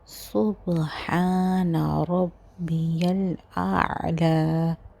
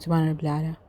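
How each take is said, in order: First: The phrase is said carefully with every sound clear. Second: The phrase is rushed and sounds are run together. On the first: The speaker calls it right. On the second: The speaker calls it wrong.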